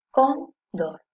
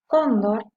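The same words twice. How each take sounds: First: "cóndor" split as "cón", pause, "dor"; syllable by syllable. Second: Said in the usual way. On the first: Shown as a demonstration. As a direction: break "cóndor" into two separate syllables. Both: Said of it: "Yo la separo en sílabas".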